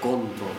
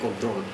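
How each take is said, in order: First: The stress is on the first syllable. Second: The stress is on the last syllable. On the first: This is how people in Paraguay say it. The speaker calls it wrong. "decimos control" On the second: This is how it is said in English. The speaker calls it right. "en vez de control en inglés"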